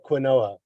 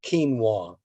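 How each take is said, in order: First: "quinoa" said as kwih-NOH-uh; "quinoa" in three syllables, kwih-NOH-uh; spelling pronunciation. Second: "quinoa" said as KEEN-wah; "quinoa" opening like "keen", ending in "wah"; correct pronunciation. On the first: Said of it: "Looks like quinoa, but it's spelled". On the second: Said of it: "but it's pronounced quinoa". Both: Shown as a demonstration.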